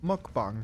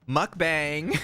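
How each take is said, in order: First: It is said in her plain voice. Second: It is said in a California-girl accent.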